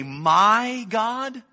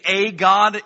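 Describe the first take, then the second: First: "my God" lifted high with weight on "my"; stress on my. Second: "a God" said loud with a punch on "a"; loud "a" leaning on the article; stress on a. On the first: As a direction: lean tenderly on "my". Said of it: "But if you say". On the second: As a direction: hit "a" hard before "God". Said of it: "If you say". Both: Shown as a demonstration.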